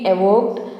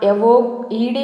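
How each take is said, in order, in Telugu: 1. -ed ముగింపును సాధారణంగా, ఒత్తి లేకుండా పలుకుతారు. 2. -ed ముగింపును గట్టిగా ఒత్తి పలుకుతారు.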